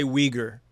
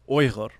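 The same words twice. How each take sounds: First: Uyghur said English-style as "WEE-ger"; English pronunciation. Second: Uyghur said "OY-ghur", with throaty gh; proper native pronunciation. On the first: Host shows audience how English speakers say it, Uyghur as "WEE-ger". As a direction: say Uyghur the anglicised way, "WEE-gur". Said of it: "in English, we say Uyghur". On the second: Host checks proper pronunciation with guest, Uyghur as "OY-ghur". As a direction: pronounce Uyghur natively, opening on "oy". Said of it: "it is properly pronounced". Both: Shown as a demonstration.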